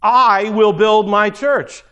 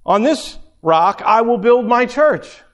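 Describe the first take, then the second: First: "I" hit first and hardest, slow and louder; stress on I. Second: "build" given the main weight, falling after it; stress on build. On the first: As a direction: put all the weight on "I", words drawn out. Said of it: "emphasis to me". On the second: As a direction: lean on "build", not on "I". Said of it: "Es-, emphasis to me". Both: Shown as a demonstration.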